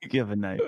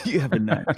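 First: Said in the usual way. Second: Laughing through the words, louder. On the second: Real, not acted. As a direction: laugh as you repeat it.

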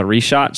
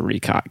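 First: "Richat" with a SH sound in the middle; other pronunciation, Richat. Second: "Ricot" with a hard K in the middle; own pronunciation, Ricot. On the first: Host quoting how other researchers say it, "Richat" with SH. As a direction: say "Richat" as ree-SHOT. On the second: Host preferring the cooler-sounding version, "Ricot" with hard K. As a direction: say "Ricot" as ree-KOT. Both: Shown as a demonstration. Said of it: "I pronounce it Ricot".

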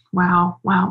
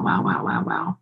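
First: Said in the usual way. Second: Whispered awe. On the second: Real, not acted. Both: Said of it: "Oh, man".

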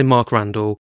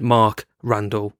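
First: Said in the usual way. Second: "Mark Randall" with a pause between the two words; overcareful, each name apart; split name. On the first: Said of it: "rather than say". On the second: Shown as a demonstration. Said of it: "I went".

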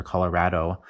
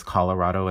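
First: "Colorado" with the a of "cat" in the third syllable; short-a vowel. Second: "Colorado" with "ah" in the third syllable; ah vowel. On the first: Linguist offering the other variant, "Colorado" with a flat "rad". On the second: Linguist listing local key words, "Colorado" with an "ah". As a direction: say "Colorado" as colo-RAH-do. Showing two local pronunciations. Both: Shown as a demonstration.

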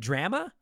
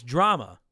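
First: DRAMA with a short flat A as in cat, questioning; alternate pronunciation. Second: Said in the usual way. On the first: Shown as a demonstration. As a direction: say "Drama" as DRAM-uh, rising like a question. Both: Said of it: "How do you say it?".

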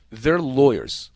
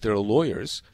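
First: "their" punched louder, drawn out slowly; stress on THEIR. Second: Said in the usual way. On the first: Shown as a demonstration. Host relaying callers' complaints about lawyers, stress on "their". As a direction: lean hard and slow on the word "their". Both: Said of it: "stress the word their".

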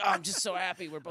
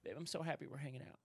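First: Raised, hammed-up contented sigh; exhausted by happiness. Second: Soft, quick murmur to a partner; exhausted by happiness. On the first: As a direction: act overcome by happiness with your partner. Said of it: "When I do it, I'm like". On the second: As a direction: say it worn out with contentment. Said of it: "just so exhausted by happiness". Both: Shown as a demonstration.

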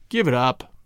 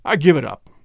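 First: Low, resigned and sad; dejected low murmur of surrender; sad repetition. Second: Said in the usual way. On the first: A narrator's reading. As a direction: repeat it sadly, sinking lower. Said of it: "he repeated sadly to Lawson". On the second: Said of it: "he repeated sadly".

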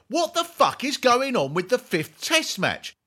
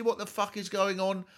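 First: High, loud exasperated question; mock outraged shout. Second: Said in the usual way. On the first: Reading listener Eric's cricket question, mock outraged shout. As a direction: blurt it like the jingle, exasperated. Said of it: "Eric Heath asks". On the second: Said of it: "if you ask me seriously".

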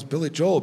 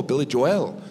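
First: "Joel" as one syllable, like "Jole"; usual American pronunciation. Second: "Joel" in two syllables, "Jo-well"; sound guy's pronunciation. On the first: Comic cites the name to the opening act, "Joel" as one syllable. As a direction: say "Joel" to rhyme with "bowl". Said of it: "this sound guy calls". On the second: Comic quotes the sound guy's version, "Joel" said "Jo-well". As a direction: end "Joel" like the word "well". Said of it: "this sound guy calls [name]". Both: Shown as a demonstration.

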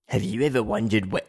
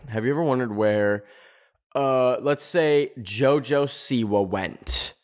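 First: Put-on a failed stab at an Australian accent, lower; half-hearted Australian accent on the narrator's line. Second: Said in the usual way. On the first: Mocking a YouTuber's intro in a botched Australian accent. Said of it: "I can't do an Australian accent".

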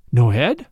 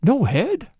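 First: Low start leaping into a rising question; startled concern. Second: Higher, rising question of disbelief; startled repeat. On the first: Priest hears of the headless corpse, startled. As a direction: ask it startled, swinging upward at the end. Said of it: "showed a leap of startled concern". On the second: Priest repeating the news in startled concern. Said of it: "he repeated". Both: A narrator's reading.

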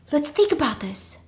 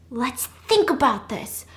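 First: Higher-pitched, quicker first attempt; acted nervous attempt at reason; trying to calm. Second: Slow, stretched-out repeat; acted slow, measured reasoning; deliberate calming. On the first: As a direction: say it high, at normal speed. First try at calming the panic. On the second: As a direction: draw out each word to take control. Repeats it slowly to take control.

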